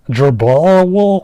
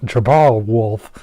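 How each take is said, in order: First: Slow "Jerbal Wool", the F left off "Wool"; copying the translator voice. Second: "Jerbal Wolf" with a clear F at the end; proper name read out. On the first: Retold or imitated. Reading the mangled name the translator gave, slow imitation. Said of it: "the thing was pronouncing it as Jerbal". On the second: Shown as a demonstration. Getting the character's name right at last, slow and careful. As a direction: say "Jerbal Wolf" slowly, landing the final F. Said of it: "what the hell is happening to my tongue".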